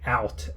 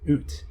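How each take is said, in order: First: The vowel is a wide open 'ow' sound. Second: The vowel is a closer 'oo'-like sound. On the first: "in America, we we open our mouth all the way" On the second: "but in Canada, they say ooh, like a boot"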